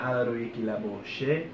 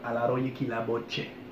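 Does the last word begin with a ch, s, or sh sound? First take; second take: sh; ch. First: The last word begins with a sh sound. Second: The last word begins with a ch sound. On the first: The speaker calls it wrong. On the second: The speaker calls it right. "you're gonna hear che"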